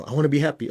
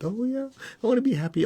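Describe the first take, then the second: First: Said in the usual way. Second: Much higher, playful delight; dreamy delight. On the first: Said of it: "And then you go". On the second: Retold or imitated. Student imagining happiness, higher and delighted. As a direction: gush it like a Peter Pan moment. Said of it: "Peter Pan moment".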